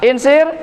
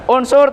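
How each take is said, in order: First: The word is said with i vowels. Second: The word is said with u vowels. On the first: The speaker calls it wrong. "salah bukan insir" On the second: The speaker calls it right. "bukan insir tapi unsur"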